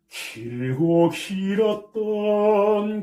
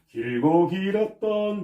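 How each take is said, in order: First: The consonants are crisp with slight aspiration. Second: The consonants are soft and plain. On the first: The speaker calls it right. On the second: The speaker calls it wrong.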